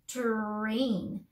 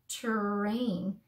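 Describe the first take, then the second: No difference in how they are said.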